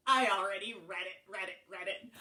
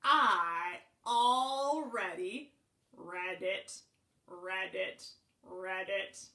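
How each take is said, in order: First: Said in the usual way. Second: Slow, spaced-out frog "read it"; bullfrog croak. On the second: A narrator's reading. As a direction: croak read it like a ribbit, pausing between. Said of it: "You know what he said?".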